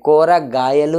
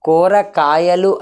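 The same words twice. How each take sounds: First: "కూరగాయలు" with the second k softened to g; softened G pronunciation. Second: "కూరకాయలు" with a hard k in కాయలు; hard K pronunciation. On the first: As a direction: say "కూరగాయలు" with a voiced g in గాయలు. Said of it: "అని పలుకుతాం". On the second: Teacher showing what is hard to say, "కూరకాయలు" with hard k. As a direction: say "కూరకాయలు" keeping the second k crisp. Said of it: "అని పలకడం కష్టం కాబట్టి". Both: Shown as a demonstration.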